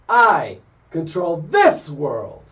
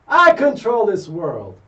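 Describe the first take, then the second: First: Strong emphasis falls on 'I' and 'this'. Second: No special emphasis falls on 'I' and 'this'. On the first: The speaker calls it right. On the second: The speaker calls it wrong.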